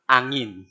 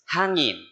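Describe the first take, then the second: First: The word begins without an h sound. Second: The word begins with an h sound. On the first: This is how Kapampangan speakers say it. "angin sa Kapampangan" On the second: This is the standard Tagalog way. "Hangin sa Tagalog"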